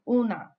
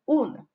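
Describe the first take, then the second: First: It ends in a full, open 'a' vowel. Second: It ends in a faint, weak schwa vowel. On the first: The speaker calls it wrong. "the horrible mistake of saying una" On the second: The speaker calls it right. "make sure not to pronounce the uh at the end too much, but make sure that it is there"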